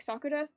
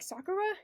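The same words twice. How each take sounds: First: The R is a quick Japanese-style tap. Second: The R is an English-style R sound. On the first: "like the Japanese R" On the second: "instead of like"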